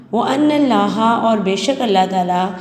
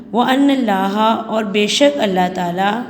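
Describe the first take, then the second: No difference in how they are said.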